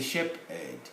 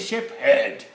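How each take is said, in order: First: The h sound is left silent. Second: The h sound is clearly pronounced. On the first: The speaker calls it right. "H is silent" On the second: The speaker calls it wrong. "It's not a shape head"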